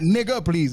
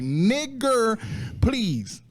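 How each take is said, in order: First: The first word ends with an open 'uh' sound. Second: The first word ends with a clear 'er' sound. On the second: "the E R, like"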